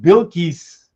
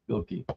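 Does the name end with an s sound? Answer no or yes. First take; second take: yes; no. First: The name ends with an s sound. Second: The name ends without an s sound. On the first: "with the S at the end" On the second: "it didn't sound like she said yeah the S"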